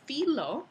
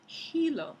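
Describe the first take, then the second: First: The word begins with an f sound. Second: The word begins with an aspirated h sound. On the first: This is the older Latin form. "filo en latín" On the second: This is the medieval Castilian form. "hilo con H"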